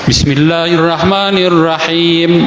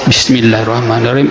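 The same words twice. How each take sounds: First: The phrase is recited aloud, in full voice. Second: The phrase is recited quietly, under the breath. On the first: "dibaca jahar di rakaat pertama" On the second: "sir di rakaat kedua"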